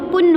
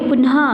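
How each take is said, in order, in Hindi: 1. शब्द के अंत में 'ह' की आवाज़ नहीं है। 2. शब्द के अंत में साँस वाली 'ह' की आवाज़ है। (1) "विसर्ग नहीं होती तो पुन होगा, पुन तो सही शब्द नहीं है" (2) "इसीलिए पुनः"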